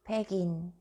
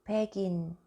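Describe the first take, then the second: The two takes are said the same way.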